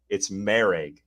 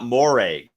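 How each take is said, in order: First: The first syllable sounds like 'mer'. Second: The first syllable sounds like 'mor'. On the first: The speaker calls it right. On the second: The speaker calls it wrong. "it is not Moreg"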